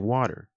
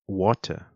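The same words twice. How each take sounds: First: It is said in an American accent. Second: It is said in a British accent.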